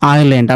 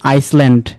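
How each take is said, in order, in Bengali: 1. s এর শব্দ নীরব। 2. s এর শব্দ উচ্চারণ করা হয়।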